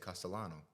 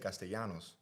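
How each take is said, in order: First: The name ends without an s sound. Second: The name ends with an s sound. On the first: The speaker is among Italians. "all of a sudden I won't say the S" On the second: The speaker wants to sound Latin. "if I want to be Latin again, I just say Castellanos"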